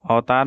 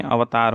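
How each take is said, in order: First: अवतार run together as "autaar"; wrong pronunciation. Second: Said in the usual way. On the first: Shown as a demonstration. Teacher shows students the error, अवतार said as autaar. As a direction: merge the av of अवतार into au. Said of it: "नहीं". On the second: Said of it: "होता है".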